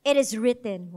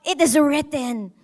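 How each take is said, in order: First: Low, firm declaration of it is written; declaring it is written. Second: Said in the usual way. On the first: Shown as a demonstration. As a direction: state it is written like a verdict. (mariing pahayag ng it is written) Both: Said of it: "i-declare".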